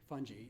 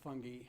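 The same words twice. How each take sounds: First: It is said the North American way. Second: It is said the British way.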